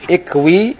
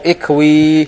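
First: The final vowel is held short. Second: The final vowel is held long.

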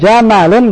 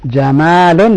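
First: The vowel after the m is short. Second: The vowel after the m is long. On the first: It means camel. "dengan mim yang pendek, unta" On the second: It means beautiful. "dengan mim yang panjang artinya indah"

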